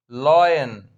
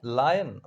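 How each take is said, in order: First: "lion" said as LOY-en; "lion" rhymed with "join", in two syllables; mispronounced lion. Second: "Lion" said as LIE-en; "Lion" with first syllable like "lie"; corrected lion. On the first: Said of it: "Oh, I'm sorry". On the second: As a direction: say "Lion" with an eye vowel, LIE-en. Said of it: "It's lion". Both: Real, not acted.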